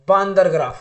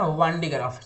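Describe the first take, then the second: First: The first word is said as 'baandar'. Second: The first word is said as 'vaandee'. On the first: A playful nickname, like the word for monkey. The speaker calls it wrong. "प्यार से बोलते हैं बांदर graph, लेकिन बांदर graph नहीं" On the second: The proper name of the device. The speaker calls it right. "ये बांडी ग्राफ है ना"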